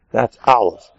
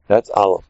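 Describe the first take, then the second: First: Aleph leaned on, falling; stress on Aleph. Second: That's leaned on, Aleph thrown away; That's carries the weight; stress on That's. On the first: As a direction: hit the word Aleph. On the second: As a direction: hit the word That's. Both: Shown as a demonstration.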